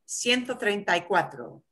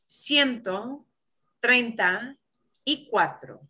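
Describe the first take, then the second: First: It is said at a normal, quicker speed. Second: It is said slowly and carefully.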